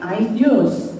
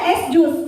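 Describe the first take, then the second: First: It is said with English sounds, as ice juice. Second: It is said with Indonesian sounds, as es jus. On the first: The speaker calls it right. "Kalau tulisannya bahasa Inggris ya bacanya bahasa Inggris" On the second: The speaker calls it wrong. "dibacanya es jus, bukan. Itu salah"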